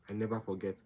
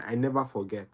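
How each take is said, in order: First: Soft echo. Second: Said in the usual way. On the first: Real, not acted. Student recalling her study method, quiet echo to herself. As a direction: repeat "I never forget" much softer, to herself. Repeats line, second softer.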